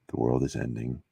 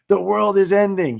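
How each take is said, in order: First: It is said in a calm, measured tone. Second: It is said in an alarmed, dramatic tone.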